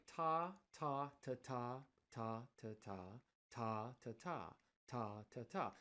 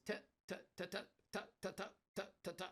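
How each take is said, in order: First: Long and short "ta" in a swung pattern; trumpet phrasing. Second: Every "ta" very short and choppy; staccato "ta" hits, all equally brief; drummers' phrasing. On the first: Showing how a trumpet player plays it, legato swung phrasing. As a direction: let each long "ta" ring, tuck in the short. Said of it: "that's how I would play this". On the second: Showing how most drummers play it, dry staccato hits. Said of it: "Most drummers play this". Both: Shown as a demonstration.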